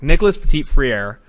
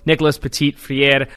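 First: The name is said in a plain accent. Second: The name is said in a put-on French accent. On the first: "Can I take it back?" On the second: "I'm never doing the French accent again"

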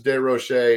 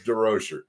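First: The name is pronounced the French way. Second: The name is pronounced the American way. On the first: "if you had a French class, it's De Rocher" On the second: "if you're an American like us, it's DeRocher"

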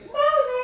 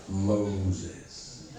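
First: It is said in a squeaky voice. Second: It is said in a deep voice.

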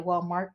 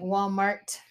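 First: The word ends with a K sound. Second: The word ends with a T sound. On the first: The speaker calls it wrong. "they say Walmart with a CK" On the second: The speaker calls it right. "Walmart with a T"

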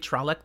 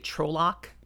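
First: It does not sound like troll plus orc. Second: It sounds like troll and orc mashed together. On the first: The speaker calls it right. "some people don't say Trolloc" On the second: The speaker calls it wrong. "which Trolloc just feels like a mash of the two"

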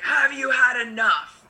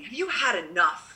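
First: It sounds aggressive, like a challenge in a fight. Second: It sounds like a disappointed, scolding father.

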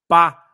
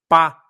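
Both takes have the same delivery.

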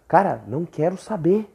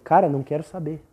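First: It is said in a rude, harsh tone. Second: It is said in a calm, plain tone.

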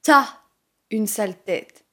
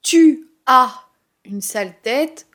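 First: The vowel of 'tu' is dropped. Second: The vowel of 'tu' is fully pronounced. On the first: The speaker calls it right. "Le « u » de « tu » est supprimé" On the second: The speaker calls it wrong. "on ne dit pas « tu as une sale tête »"

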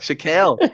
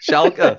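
First: The word ends with a 'kel' sound. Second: The word ends with a 'keh' sound. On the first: "I know I got it wrong"

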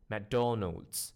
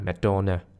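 First: It is said in a standard English accent. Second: It is said in a Malaysian local accent.

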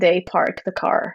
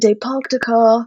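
First: The r in park is pronounced, American-style. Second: The r in park is dropped, British-style. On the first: "In America" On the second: "Because in Britain"

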